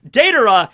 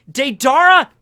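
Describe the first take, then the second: First: Deidara said DAY-duh-ruh; Deidara stressed on the first syllable; corrected pronunciation. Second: Deidara said day-DAR-uh, high and loud; Deidara with a loud stressed "dar"; flubbed pronunciation. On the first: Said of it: "I will try to say it". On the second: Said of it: "I'm gonna say Deidara". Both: Shown as a demonstration.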